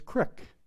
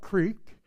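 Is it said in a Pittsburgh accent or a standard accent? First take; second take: Pittsburgh; standard. First: It is said in a Pittsburgh accent. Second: It is said in a standard accent.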